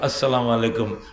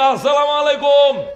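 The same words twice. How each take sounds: First: The greeting is said softly and pleasantly. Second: The greeting is stretched out long and loud. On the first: The greeting is given politely up close. The speaker calls it right. "সুন্দর করে" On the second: The greeting is called out from far away, disrespectfully. The speaker calls it wrong. "তিন mile লম্বা"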